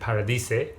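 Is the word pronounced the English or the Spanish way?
Spanish. It is said with a Spanish-style pronunciation. It is said in the local language. "because uh, it's in Mexico, of course, the main character pronounces it Paradise"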